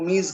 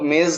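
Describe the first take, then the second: First: It is said with the Persian vowel. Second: It is said with the local Urdu vowel. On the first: This is how Persian speakers say it. "वो मीज कहते हैं" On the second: This is how speakers here say it. "हम लोग मेज कहते हैं"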